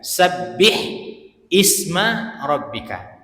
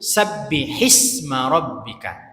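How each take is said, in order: First: Isma starts with its own glottal onset, separately. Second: Isma runs straight on from the word before. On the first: This is the basic form of the words. "Asalnya itu sabbih isma rabbika" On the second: The words are read joined together. "Tapi kalau disambung"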